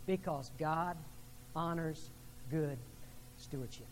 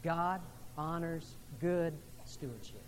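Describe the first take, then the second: First: Each word set apart with pauses; God honors good stewardship, paced out; spaced emphasis. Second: Slow unison recitation; slow call-and-response line; said with the congregation. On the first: Shown as a demonstration. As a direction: lay it down word by word, slowing. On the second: Real, not acted. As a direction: lead the room in saying it together. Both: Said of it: "Would you say that with me?".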